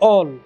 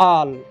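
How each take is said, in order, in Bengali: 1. স্বরধ্বনিটি একটু ছোট 'o'-এর মতো শোনাচ্ছে। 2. স্বরধ্বনিটি খোলা 'ah'-এর মতো শোনাচ্ছে। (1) "ତାହା ସମ୍ପୂର୍ଣ୍ଣ ଭୁଲ ଉଚ୍ଚାରଣ" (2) "ଏହାର ସଠିକ ଉଚ୍ଚାରଣ ହେବ ଆଲ୍"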